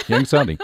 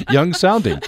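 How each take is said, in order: First: Said in the usual way. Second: A laugh through the words, higher and louder. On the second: Real, not acted. Host laughing as he corrects the caller's remark, amused. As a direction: chuckle the correction out.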